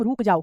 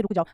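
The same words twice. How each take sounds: First: रुक with a long oo; long-u wrong demo. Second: रुक with a short, quick u; short-u demo. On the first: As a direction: say रुक as "rook". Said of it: "हम ये नहीं कहते". (गलत उच्चारण, रुक को रूक बोलें) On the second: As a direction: say रुक as "ruk". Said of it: "इस तरह से रुक जाओ". (रुक में छोटा उ) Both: Shown as a demonstration.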